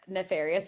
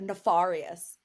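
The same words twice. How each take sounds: First: The word is pronounced in the usual way. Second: The word is pronounced in an unusual, odd way.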